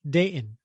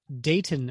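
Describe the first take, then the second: First: The middle T is dropped and silent. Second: The middle T is clearly pronounced.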